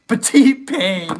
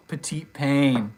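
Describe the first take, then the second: First: Exaggerated French, slow and high; French accent. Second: Said in the usual way. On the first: Streamer reading a viewer's nickname in a mock French accent. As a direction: savour the French name in mock French.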